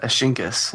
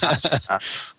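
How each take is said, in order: First: The name is said as Ashinkas. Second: The name is said as Ashkenaz. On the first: The speaker calls it wrong. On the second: The speaker calls it right.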